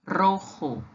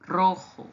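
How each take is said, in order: First: "rojo" with Spanish j; Spanish pronunciation. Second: "rojo" repeated; Spanish repeat. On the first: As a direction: model "rojo" clearly. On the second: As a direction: echo "rojo". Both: Shown as a demonstration. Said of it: "o vermelho em espanhol se diz assim".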